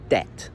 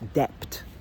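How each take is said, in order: First: The word has no b sound. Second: The word has a b sound. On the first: The speaker calls it right. "This word is pronounced debt" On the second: The speaker calls it wrong. "you pronounce this word debt like that"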